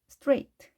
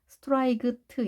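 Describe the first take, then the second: First: No k sound comes before the final t. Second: A k sound comes before the final t. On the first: The speaker calls it right. "GH는 발음이 되지 않는다" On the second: The speaker calls it wrong. "이렇게 읽는 것이 아니라"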